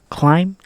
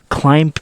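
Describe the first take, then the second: First: The final B is silent. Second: The final B is sounded. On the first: The speaker calls it right. "We ignore the B in the end" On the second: The speaker calls it wrong. "that's the wrong way to say it"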